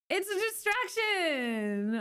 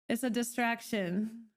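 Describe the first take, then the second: First: Pitched up and slowed, mock-dramatic; mock-serious singsong; high drawn-out repeat. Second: Said in the usual way. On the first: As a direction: stretch out distraction up high.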